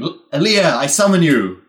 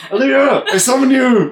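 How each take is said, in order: First: Loud reverberating call; yelling lich voice. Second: Muffled, far-off chant; distant mumbling summon. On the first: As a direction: yell the summons so it echoes. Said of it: "just yelling". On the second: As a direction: murmur the summon as if from afar. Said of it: "mumbling from". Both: Acted.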